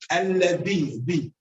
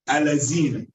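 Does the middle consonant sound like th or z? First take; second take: th; z. First: The middle consonant is a soft th sound. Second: The middle consonant is pronounced like a z. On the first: The speaker calls it right. "It's alladina" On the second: The speaker calls it wrong. "they pronounce the vel ev as a zai"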